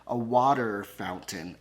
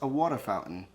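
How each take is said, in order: First: It is said in a General American accent. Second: It is said in a Boston accent. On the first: "let me say real American" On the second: "I have a Boston accent"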